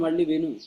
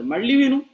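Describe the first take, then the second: First: Said in the usual way. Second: Much higher and louder, urging; preacher hammering the point home, loud; emphatic call. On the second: Real, not acted. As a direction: push "మళ్ళీ విను" out high and loud like a command. Preacher urging listeners to rehear.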